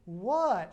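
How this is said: It sounds playful and flirtatious.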